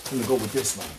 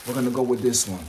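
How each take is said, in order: Both takes have the same delivery.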